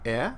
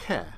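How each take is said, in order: First: The vowel begins with no H sound. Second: The vowel begins with an H sound.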